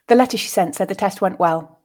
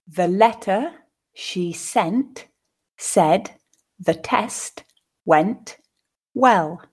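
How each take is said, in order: First: The sentence is read at a natural pace. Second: The sentence is read slowly, with pauses. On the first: "then second at a more natural pace" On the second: "once more slowly, pausing for you to grasp the meaning"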